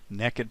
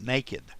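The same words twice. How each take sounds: First: It is said as 'nekkid', with a short vowel. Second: It is said as 'nay-kid', with a long vowel.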